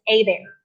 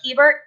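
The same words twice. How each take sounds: First: The name is said the Cajun way. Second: The name is said the general way.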